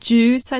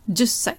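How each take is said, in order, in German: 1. Das 's' ist kurz, ohne Pause davor. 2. Das 's' ist doppelt, mit einer kurzen Haltepause davor. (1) "also nicht Jussei" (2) "also ein kleines Zu dazwischen"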